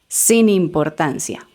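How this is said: The two words run together as one. The speaker calls it right. "como una sola palabra"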